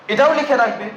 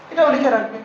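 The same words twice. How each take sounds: The two takes are said the same way.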